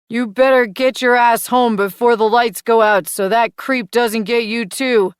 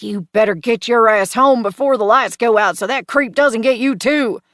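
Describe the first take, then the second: First: Loud, higher copy of a stern dad warning; echoing her daddy voice. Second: Loud, high mock-stern dad warning; hammed-up parental scolding; best daddy voice. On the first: Acted. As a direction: parrot the dad scolding exactly. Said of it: "Mason echoes, sounding just like me". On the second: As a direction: bark it like a fed-up Southern father. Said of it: "I say it in my best daddy voice".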